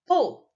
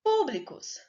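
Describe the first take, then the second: First: "Públicos" split into PÚ, bli, cos, first one strongest; teacher sounding out "Públicos" with pauses; syllable by syllable. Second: Said in the usual way. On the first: Shown as a demonstration. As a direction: break "Públicos" into three syllables, hitting PÚ. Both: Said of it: "a sílaba tônica foi a antepenúltima".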